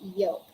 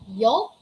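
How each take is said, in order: First: The L sound is silent. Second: The L sound is pronounced. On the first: The speaker calls it right. "we say yolk" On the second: The speaker calls it wrong. "We don't say yolk"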